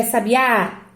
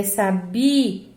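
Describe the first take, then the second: First: "sabiá" as sa-bi-Á, last syllable stretched; stress on final Á. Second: "sabia" slowly as sa-BI-a; stress on BI. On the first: Teacher offering another option, stress on last syllable. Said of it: "qual é a sílaba tônica". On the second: Teacher correcting the option, stress on middle syllable. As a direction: stretch the BI, then a light A in "sabia". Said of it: "Não, aqui é sabia". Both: Shown as a demonstration.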